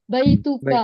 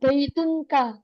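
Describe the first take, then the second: First: No n sound comes before the final ka. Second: An n sound comes before the final ka. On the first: The speaker calls it right. "kita baca baituka" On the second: The speaker calls it wrong. "nggak boleh ditanwin, nggak boleh kita bilang baitunka"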